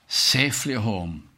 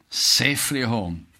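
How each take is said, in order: Both takes have the same delivery.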